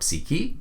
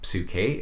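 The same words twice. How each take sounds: First: It is pronounced in modern Greek style. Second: It is pronounced in reconstructed ancient Greek style. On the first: "in modern Greek" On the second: "in the reconstructed Erasmian pronunciation"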